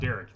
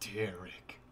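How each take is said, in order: First: The name is said in a neutral tone. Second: The name is said with a hateful tone.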